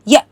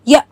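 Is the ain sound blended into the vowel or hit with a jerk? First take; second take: jerked; jerked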